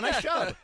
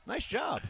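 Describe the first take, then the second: First: Said in the usual way. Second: High, bright congratulation; excited praise. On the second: Real, not acted. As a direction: cheer the caller on. Host congratulates correct caller.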